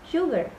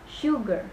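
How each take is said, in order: First: The stress is on the second syllable. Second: The stress is on the first syllable. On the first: The speaker calls it wrong. "bukan sugar" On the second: The speaker calls it right. "Jadi shoe-nya yang di stress"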